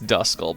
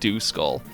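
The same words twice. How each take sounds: First: The first syllable sounds like the word dusk. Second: The first syllable sounds like the word dew. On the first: The speaker calls it right. "I know it's Duskull" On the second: The speaker calls it wrong. "my mind can't help but see the D U and think Duskull"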